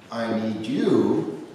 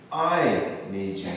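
First: The stress is on you. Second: The stress is on I.

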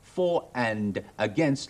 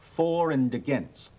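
First: The word 'and' is full and clear. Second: The word 'and' is weak and reduced. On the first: The speaker calls it wrong. "如果你話for and against 咧，就算差噶啦" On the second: The speaker calls it right. "正反雙方要講for and against"

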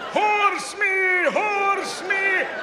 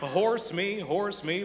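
First: It is yelled like Gandalf at a hobbit. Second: It is said softly and reassuringly.

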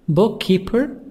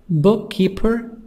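The two takes are said the same way.

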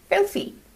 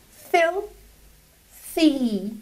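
First: The two syllables are joined smoothly together. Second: The word is split into two separate syllables. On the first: "and then you bring them together" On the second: "you just have to split it into two syllables"

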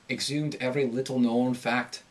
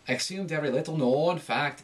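First: The long O vowel rises slightly in pitch. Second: The long O vowel rises strongly in pitch. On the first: The speaker calls it right. "So with Irish, you're going to have like a slight rise, just slight" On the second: The speaker calls it wrong. "it's too much"

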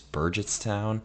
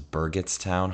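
First: The G is said as a soft G. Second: The G is said as a hard G. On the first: The speaker calls it right. "It's Burgettstown" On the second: The speaker calls it wrong. "hard G"

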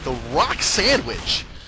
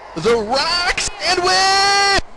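First: It is said flatly, without much energy. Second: It is said with more energy and enthusiasm.

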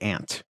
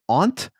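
First: The vowel sounds like in 'ant', Ohio style. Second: The vowel is broad 'ah', Northeast style.

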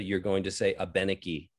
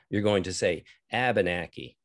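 First: It is said with a French inflection. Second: It is said with flattened A vowels. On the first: The speaker is French-speaking. "It's a French inflection that's very close to the original word" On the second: The speaker is from Vermont. "You're going to flatten your A's out"

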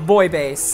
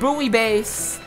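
First: Buoy is said with one syllable, boy. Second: Buoy is said with two syllables, boo-ee. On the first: "I know some of you may say boy" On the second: "I personally say buoy as an American"

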